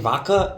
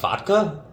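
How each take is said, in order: First: The D sound in the middle is dropped. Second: The D sound in the middle is pronounced.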